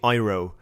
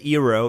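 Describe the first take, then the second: First: It is said with a German pronunciation. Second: It is said with an English pronunciation. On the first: The speaker calls it right. "You guys say it in Germany, you say Euro" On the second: The speaker calls it wrong. "You don't say Euro"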